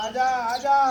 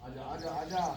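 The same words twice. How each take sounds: First: High, loud herder's call. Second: Said in the usual way. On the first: Real, not acted. Farmer calling stubborn buffalo, loud high call. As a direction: holler it across the field.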